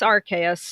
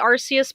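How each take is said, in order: First: The name sounds like its usual English pronunciation. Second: The name sounds closer to its Japanese pronunciation. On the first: This is the established official version. "it's it's Arceus" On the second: This is the speaker's habitual version. "I say Arceus because it's a habit of mine and it's closer to the Japanese pronunciation"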